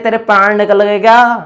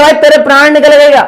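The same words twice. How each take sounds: First: Said in the usual way. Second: Higher and louder, teasing the friend with भाई; mock exclaim. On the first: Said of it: "जैसे कहते हैं". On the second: Teacher acting out a friend's teasing question, mock exclaim. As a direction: toss it out like a jokey taunt. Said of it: "कि बोले".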